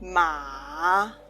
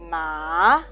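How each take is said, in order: First: The pitch dips low then rises. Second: The pitch rises from mid to high. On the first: It means horse. "The third tongue" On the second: It means feel numb. "Ma can means feel numb"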